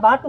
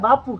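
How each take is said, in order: First: The middle consonant is a t sound. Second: The middle consonant is a p sound. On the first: The speaker calls it wrong. "બાટુ નો કહેવાય" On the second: The speaker calls it right. "બાપુ કહેવાય"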